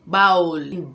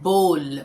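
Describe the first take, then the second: First: The vowel glides like 'ow' in 'cow'. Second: The vowel sounds like 'oh' in 'go'. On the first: The speaker calls it wrong. "हम हमेशा बोलते हैं कि बाउल, बाउल जो है वो गलत है" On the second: The speaker calls it right. "इसे बोलते हैं बोल"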